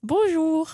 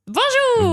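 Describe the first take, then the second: First: It is said flatly, without enthusiasm. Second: It is said with some enthusiasm.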